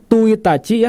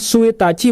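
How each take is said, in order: First: The word starts with a plain t sound. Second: The word starts with a plain s sound. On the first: "bukan Tuitachi ya" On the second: "Bukan Suitachi"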